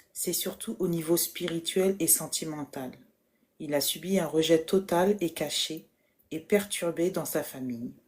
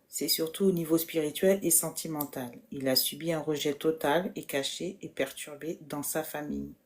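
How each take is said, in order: Both takes have the same delivery.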